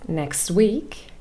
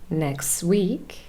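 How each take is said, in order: Both takes have the same delivery.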